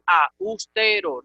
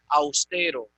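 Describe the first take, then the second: First: The a and u fall in separate syllables. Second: The a and u blend into one syllable. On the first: The speaker calls it wrong. "tú no puedes decir austero" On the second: The speaker calls it right. "Hay dictongo ahí"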